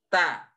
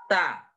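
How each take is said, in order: No difference in how they are said.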